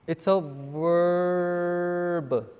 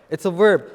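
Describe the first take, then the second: First: Very slow, stretched-out VERB; drawn-out answer. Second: Said in the usual way. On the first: Real, not acted. Teacher prompting the class for the answer, drawn out. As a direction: hold the word verb long, leading the class to it.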